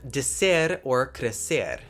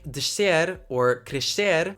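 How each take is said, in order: First: The s before the consonant sounds like plain s. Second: The s before the consonant sounds like sh.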